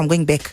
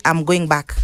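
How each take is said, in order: First: Clipped South African English; South African accent. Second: Said in the usual way. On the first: Shown as a demonstration. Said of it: "South Africa anasema". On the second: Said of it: "if I say".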